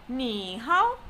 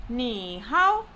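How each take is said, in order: No difference in how they are said.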